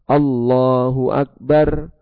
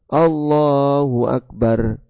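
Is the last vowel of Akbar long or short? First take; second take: short; short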